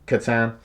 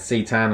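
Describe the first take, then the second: First: The name is said like 'Catan'. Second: The name is said like 'Citan'. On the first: The speaker calls it right. "I should be saying Catan" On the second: The speaker calls it wrong. "I got very used to saying Citan"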